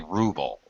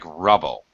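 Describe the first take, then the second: First: The first vowel is long, as in 'rule'. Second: The first vowel is short, as in 'rub'. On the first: This is how English speakers say it. "In English, we always say ruble" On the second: This is how Russian speakers say it. "the way they pronounce it in Russian sounds like rubble"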